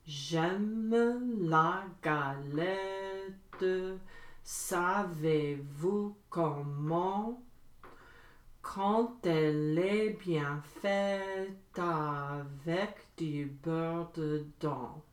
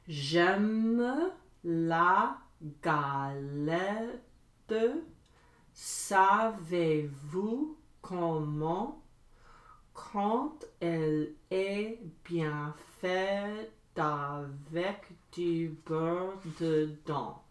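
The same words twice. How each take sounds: First: It is said at medium speed. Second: It is said slowly.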